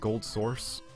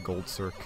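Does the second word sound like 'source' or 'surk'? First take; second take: source; surk. First: The second word is said as 'source'. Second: The second word is said as 'surk'. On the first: The speaker calls it right. "is supposed to be pronounced as Gold Source" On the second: The speaker calls it wrong. "I always say Gold Circ"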